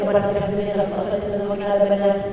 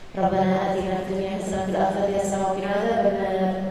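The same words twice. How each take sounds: First: It is rattled off very fast. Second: It is said at a less hurried pace.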